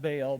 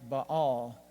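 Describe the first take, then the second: First: It is said the usual English way. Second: It is said the original Semitic way. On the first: "we usually pronounce it Baal" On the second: "in the original Semitic languages, it was usually something like Baal"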